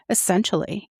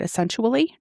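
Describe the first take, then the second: First: The word is pronounced clearly in the usual way. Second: The word comes out garbled, like a made-up word. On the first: The speaker calls it right. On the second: The speaker calls it wrong. "My mouth made up a word"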